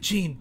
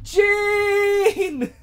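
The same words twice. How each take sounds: First: The name is said at a calm, normal volume. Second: The name is yelled loudly. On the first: The speaker calls it wrong. "Nobody yells Jean, and it bothers me. He's just like" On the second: The speaker calls it right. "all I wanted was for someone to go"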